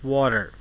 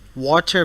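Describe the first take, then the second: First: The middle T is a soft, quick tap. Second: The middle T is a crisp, hard T.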